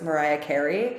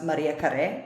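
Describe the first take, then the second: First: The name is said the usual English way. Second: The name is said the local Spanish way.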